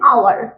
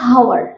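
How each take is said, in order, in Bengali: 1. শব্দটি সরাসরি একটি স্বরধ্বনি দিয়ে শুরু হয়। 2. শব্দটি h ধ্বনি দিয়ে শুরু হয়। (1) "এটা হবে আওয়ার" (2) "এটা হাওয়ার নয়"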